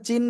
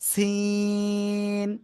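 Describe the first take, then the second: First: The word begins with a ch sound. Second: The word begins with an s sound. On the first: The speaker calls it wrong. "অনেকে কিন্তু চায়নার যে স- চীন বলে ওই চীন বলেন, কিন্তু চীন না" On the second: The speaker calls it right. "কিন্তু এটা এটা হলো সিন"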